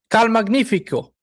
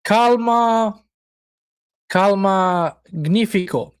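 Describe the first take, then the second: First: "Cal Magnifico" run together as one name, higher; practised pronunciation. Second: "Calma, calma, magnifico" in separate pieces, pausing after each "calma"; careful sounding-out. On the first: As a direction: try "Cal Magnifico" in one go, without a break. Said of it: "Did I say it right?". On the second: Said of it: "very hard even to say it". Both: Shown as a demonstration.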